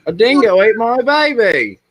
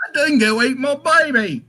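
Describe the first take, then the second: First: Laughing, high and loud mock Australian accent; Australian accent pitched way up, laughing; Australian accent impression. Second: Put-on higher, laughing Australian accent; laughing Australian accent, pitched up; mock Australian woman. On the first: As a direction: ham up the Australian line through a laugh. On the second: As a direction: imitate the Australian woman's famous line. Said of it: "it's a woman that says that line".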